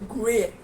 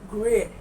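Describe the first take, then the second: No difference in how they are said.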